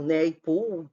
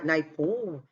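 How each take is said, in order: First: "Naipaul" said slowly, first syllable like "nei"; alternative attempted pronunciation. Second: "Naipaul" said slowly, first syllable like "nai"; first attempted pronunciation. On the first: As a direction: try "Naipaul" slowly as if "Neipou". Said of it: "não sei". ("Naipaul" devagar, começando com "nei") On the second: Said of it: "eu não soube pronunciar". ("Naipaul" devagar, começando com "nai") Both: Shown as a demonstration.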